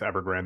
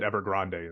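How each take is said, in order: First: The name is pronounced the English way. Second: The name is pronounced the Spanish way. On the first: "I think it's Evergrande though" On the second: "I would pronounce it Evergrande in Spanish"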